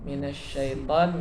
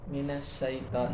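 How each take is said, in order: First: It is said with a 'sh' sound. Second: It is said with an 's' sound.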